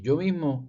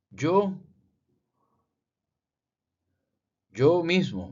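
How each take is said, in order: First: "Yo mismo" with "Yo" stressed; emphasis on yo. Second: "yo" raised and louder, stressed; emphasis on yo. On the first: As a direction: stress "Yo" on the repeat. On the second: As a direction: lean hard on "yo mismo". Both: Shown as a demonstration. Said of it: "Aquí un énfasis".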